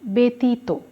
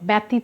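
First: The first syllable has an 'e' sound. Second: The first syllable has a 'ya' sound. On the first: The speaker calls it right. "এর মতো উচ্চারণ হলো" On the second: The speaker calls it wrong. "ব্যতীত নয়"

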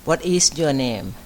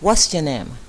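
First: Each word is said separately without linking. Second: The words are run together with a contraction. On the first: The speaker calls it wrong. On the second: The speaker calls it right.

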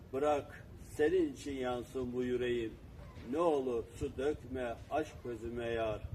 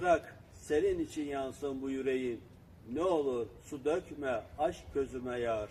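The two takes are said the same way.

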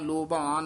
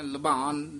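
First: The first vowel sounds like a full o. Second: The first vowel sounds like a full u. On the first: "ਨਾ ਕਹਿਣਾ ਲੋਭਾਨ" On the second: "ਨਾ ਕਹਿਣਾ ਲੁਭਾਨ"

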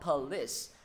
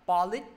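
First: The final sound is an s sound. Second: The final sound is not an s sound. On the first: The speaker calls it right. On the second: The speaker calls it wrong.

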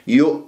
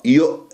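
First: The hamza is said with the lips rounded. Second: The hamza is said with the lips unrounded. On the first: The speaker calls it wrong. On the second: The speaker calls it right.

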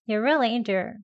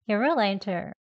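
First: The t in into is held, not released. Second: The t in into is only a puff of air. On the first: "파열시키지 않고요. 약하게 into" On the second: "아예 소리는 나오지 않게 공기만 나오도록"

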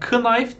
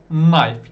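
First: The initial K sound is pronounced. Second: The initial K sound is silent. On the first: The speaker calls it wrong. "Knife değil. Yapmayın öyle" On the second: The speaker calls it right. "K'yi hiç okumuyorsunuz"

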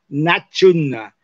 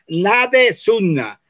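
First: The d and s merge into a ch sound. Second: The d and s stay apart with a vowel between.

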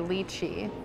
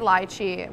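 First: The word is said the American way. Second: The word is said the British way. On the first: "Americans say lychee" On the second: "the British say lychee"

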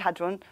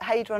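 First: The word is said the non-American way. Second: The word is said the American way. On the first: "I say hadron" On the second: "in America you pronounce it hadron"

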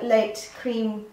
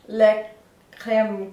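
First: It is said with an English accent. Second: It is said with a French accent. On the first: "I'm gonna say it in an English accent" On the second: "I'm gonna butcher the French accent right now"

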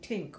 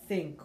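First: The word begins with a hard 't' sound. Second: The word begins with a soft 'th' sound. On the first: The speaker calls it wrong. "I did not have that TH, so I would be saying tink" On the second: The speaker calls it right. "the soft TH sound for things like think"

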